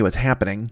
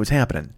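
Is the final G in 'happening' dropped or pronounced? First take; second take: pronounced; dropped. First: The final G sound is clearly pronounced. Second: The final G sound is dropped. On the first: The speaker calls it wrong. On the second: The speaker calls it right.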